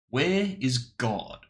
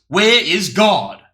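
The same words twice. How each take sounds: First: It is said sternly at normal loudness. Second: It is said with a raised, loud voice.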